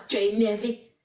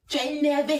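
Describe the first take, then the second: First: Said in the usual way. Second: Taunting "énervé" lifted in pitch; stress on énervé. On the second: Shown as a demonstration.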